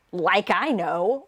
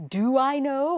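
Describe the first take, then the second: First: Slow, dismissive "like I know"; sarcastic. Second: Said in the usual way. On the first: Shown as a demonstration. Tutor demonstrating sarcastic shiru ka, slow and scornful. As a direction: drag it out with sarcasm. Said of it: "It's more a sarcastic sort of thing". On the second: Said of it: "It's not".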